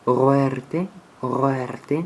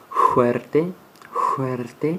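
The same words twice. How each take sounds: First: Ruerte with a throaty French R at the start; French R sound. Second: Fuerte with a rough Spanish jota at the start; Spanish J sound. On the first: Teacher contrasting the French R in ruerte. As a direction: roll ruerte from the back of the throat, French style. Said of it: "ou comme un R français". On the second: Teacher showing the Spanish J in fuerte. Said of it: "comme une J espagnole". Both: Shown as a demonstration.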